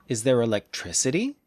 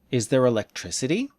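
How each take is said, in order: No difference in how they are said.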